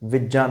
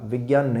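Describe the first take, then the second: First: The middle consonant is pronounced with a j sound. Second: The middle consonant is pronounced with a g sound. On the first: The speaker calls it right. "विज्ञान होता है" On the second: The speaker calls it wrong. "लेकिन हम क्या करते हैं? गे। विज्ञान। विज्ञान नहीं होता है"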